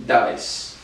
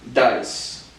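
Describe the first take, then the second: First: Dais breathed out unvoiced as a whisper; whispered echo. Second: Said in the usual way. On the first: Shown as a demonstration. Learner repeating Dais after the dictionary in a whisper. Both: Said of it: "here's how it's pronounced".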